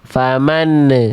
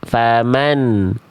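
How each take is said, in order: First: The final n bounces into an added 'ne' sound. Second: The final n flows briefly with no vowel after. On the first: The speaker calls it wrong. "jangan balik lagi jadi gini ... jangan ada ne-nya juga" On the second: The speaker calls it right. "An-nya ngalir sedikit"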